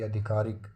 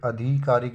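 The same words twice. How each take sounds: First: आधिकारिक with short dhi; correct form. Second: आधिकारिक with long dhee; wrong form. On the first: Teacher correcting it, आधिकारिक with short dhi. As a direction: say आधिकारिक as aa-dhi-kaa-rik. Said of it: "छोटी". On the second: Teacher showing the error, आधिकारिक with long dhee. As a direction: say आधिकारिक as aa-DHEE-kaa-rik. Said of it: "बड़ी की मात्रा नहीं". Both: Shown as a demonstration.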